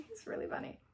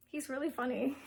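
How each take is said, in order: First: "He's really funny" whispered through a giggle, much higher; laughing whisper. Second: Said in the usual way. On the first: Real, not acted. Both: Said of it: "Alaric is really funny".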